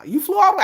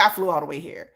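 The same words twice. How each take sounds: First: Higher voice for you. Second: Lower, softer line for herself. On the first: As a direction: lift it up for the you part. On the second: Mock comparison, the me line said lower and softer. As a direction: sink down for the me part. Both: Retold or imitated. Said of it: "It's like".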